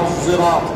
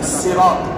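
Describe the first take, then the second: First: It begins with an emphatic s tinged with z. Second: It begins with a plain, light s sound. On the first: "بالصاد بإشمامها زايا" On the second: "بالسين"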